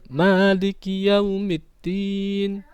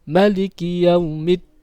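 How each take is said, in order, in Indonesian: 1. Vokal pertama pada Maliki dibaca panjang. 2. Vokal pertama pada Maliki dibaca pendek. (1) "ma-nya dibaca panjang" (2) "ma-nya dibaca pendek"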